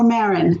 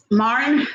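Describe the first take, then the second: First: Marin with an "eh" in the first syllable, MAIR-in; alternative pronunciation. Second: Marin with an open "ah" in the first syllable, MAR-in; first pronunciation. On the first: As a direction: say Marin as "MEH-rin". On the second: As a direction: say Marin as "MAH-rin". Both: Shown as a demonstration. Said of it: "Tell me".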